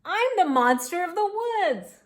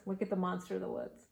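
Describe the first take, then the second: First: High, loud proud announcement; little monster. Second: Said in the usual way. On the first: A narrator's reading. Tiny monster announces itself.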